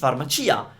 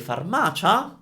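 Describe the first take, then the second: First: The 'i' in 'cia' is pronounced separately. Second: The ending 'cia' is said as 'cha'. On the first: The speaker calls it right. "it's farmacia. That is because it's a shop" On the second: The speaker calls it wrong. "C I A sounds cha. So you might be tempted to say farmacia, but it's not right"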